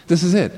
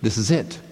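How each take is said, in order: First: "This is it." higher and louder, the "it" falling firmly; the repeat of "This is it." pushed up and louder, "it" landing down; emphatic repeat. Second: Said in the usual way. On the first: Shown as a demonstration. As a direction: drive home "it" with a higher, louder, falling finish.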